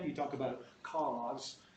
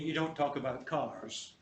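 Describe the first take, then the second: First: The R after the vowel is dropped. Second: The R after the vowel is pronounced. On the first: "when you're trying to put on a British English accent" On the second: "you don't talk about"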